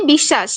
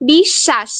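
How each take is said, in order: First: Said in the usual way. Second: বিশ্বাস split in two with a long, doubled "sh": "bish-shash"; pronunciation demo. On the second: Shown as a demonstration. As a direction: sound out বিশ্বাস carefully, holding the double "sh". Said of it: "সয় নিচে যে বটা আছে সেটা কিন্তু উচ্চারিত হয়েছে".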